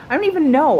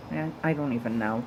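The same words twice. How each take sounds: First: I don't even know, thrown up high and loud; exasperated high laugh. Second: Said in the usual way. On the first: Real, not acted. Vlogger laughing at her own confusion, loud and high. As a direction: toss it off, laughing at yourself. Gives up on the Twitter icon.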